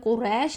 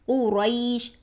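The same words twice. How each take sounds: First: The middle vowel is a single plain vowel. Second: The middle vowel glides softly toward 'ee'. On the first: The speaker calls it wrong. "कुरैश नहीं करेंगे" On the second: The speaker calls it right. "बल्कि कुरैश, आई, रई ये साउंड रखेंगे"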